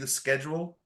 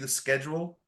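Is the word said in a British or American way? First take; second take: American; American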